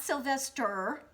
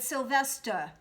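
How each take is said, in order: First: The final R sound is clearly pronounced. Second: The final R sound is dropped. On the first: The speaker calls it wrong. "it's not Sylvester" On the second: The speaker calls it right. "So you drop the R and make it a silent H sound"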